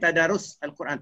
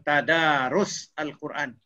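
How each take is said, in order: First: The middle vowel of tadarus is short. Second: The middle vowel of tadarus is long. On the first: The speaker calls it wrong. "Tak boleh pendek kan" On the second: The speaker calls it right. "Dia kena panjang"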